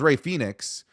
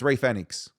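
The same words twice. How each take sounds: First: The name is pronounced the usual English way. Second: The name is pronounced the Spanish way. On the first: This is how most people say it. The speaker calls it wrong. "everyone says Rey Phoenix" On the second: This follows the original Spanish. The speaker calls it right. "but it's Rey Phoenix"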